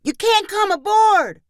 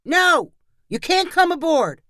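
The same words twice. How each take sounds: First: Put-on very high, drawn-up kids' yell; echoed crew shout. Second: Put-on high-pitched defiant kid's shout; child's shout. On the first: Pirate crew echoing the refusal to policemen, yelled very high. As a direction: echo the refusal at the top of a child's voice. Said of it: "others of the crew repeated". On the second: Boy pirate refusing the policemen entry, shouted high. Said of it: "Amos shouted". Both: A narrator's reading.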